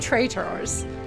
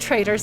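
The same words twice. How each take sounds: First: The middle T is sharp and clearly released. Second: The middle T is soft, like a D.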